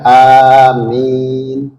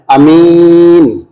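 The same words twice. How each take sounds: First: Both the first and second vowels are long. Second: The first vowel is short, the second long. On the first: It asks God to accept the prayer. The speaker calls it right. "A-nya harus panjang, I-nya juga harus panjang" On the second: It carries a different meaning. The speaker calls it wrong. "A-nya pendek, min-nya panjang"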